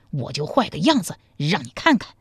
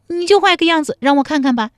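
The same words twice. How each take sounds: First: Lightly voiced man at ordinary pitch; man's playful threat, mildly acted; teasing man. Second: High, loud, fast woman's dare; high-pitched coquettish heroine; half-serious challenge. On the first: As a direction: tease her in an easy male voice. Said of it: "张琼大笑说". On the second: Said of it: "陶三春半真半假地说". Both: A narrator's reading.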